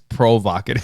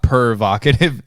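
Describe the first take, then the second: First: The first syllable sounds like 'pro'. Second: The first syllable sounds like 'per'. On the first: The speaker calls it right. "it's provocative" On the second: The speaker calls it wrong. "It's not pervocative"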